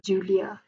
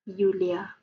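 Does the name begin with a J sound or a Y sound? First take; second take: J sound; Y sound. First: The name begins with a J sound. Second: The name begins with a Y sound. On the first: This is the name's own usual form. "not Julia" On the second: This is how others say the name. "they will sebut my name as Yulia"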